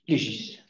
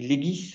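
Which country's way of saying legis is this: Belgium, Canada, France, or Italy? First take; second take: Canada; Belgium. First: The word is said the Canadian way. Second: The word is said the Belgian way. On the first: "Et au Canada" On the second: "En Belgique, on dit legis"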